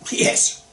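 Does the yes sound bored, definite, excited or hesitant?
definite. It is said firmly, ending flat and final. The answer is a firm yes, no discussion. "pronounced with a dot"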